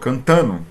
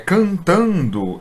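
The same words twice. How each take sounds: First: The d is dropped, so the ending sounds like no. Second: The ending keeps the d, sounding like ndo.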